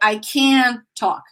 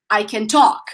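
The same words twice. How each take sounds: First: The stress falls on the word can. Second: The stress falls on the verb. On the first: The speaker calls it wrong. "I didn't say I can talk" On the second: The speaker calls it right. "the strongest part of my pronunciation is in the verb"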